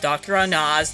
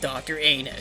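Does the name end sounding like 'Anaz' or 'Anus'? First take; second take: Anaz; Anus. First: The name ends with a 'naz' sound. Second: The name sounds like the word 'anus'. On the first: The speaker calls it right. "I'm pronouncing it as Doctor Anaz" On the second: The speaker calls it wrong. "not Doctor Anus"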